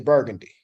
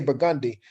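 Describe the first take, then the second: First: The word is said in an American accent. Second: The word is said in a non-American accent. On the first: "Most Americans would say" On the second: "We say"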